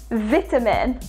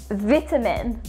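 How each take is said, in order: The two takes are said the same way.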